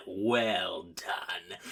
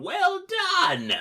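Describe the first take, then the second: First: Low, drawn-out villain praise; hammed-up evil villain, dropped low; cackling villain. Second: High, loud villain praise; hammed-up high cartoon villain; cackling villain. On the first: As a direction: sink into slow, mock-grand approval. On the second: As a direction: cry it out in gloating triumph. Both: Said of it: "he cackles and says".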